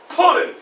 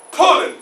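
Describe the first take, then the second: No difference in how they are said.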